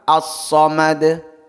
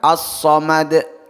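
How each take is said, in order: First: The final consonant bounces with an open release. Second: The final consonant ends with an added glottal stop. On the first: The speaker calls it right. "Yang tepat menurut beliau ialah" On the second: The speaker calls it wrong.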